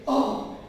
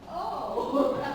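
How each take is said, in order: First: The oh sounds scared and alarmed. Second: The oh sounds happy and pleased. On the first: "Scared, right?"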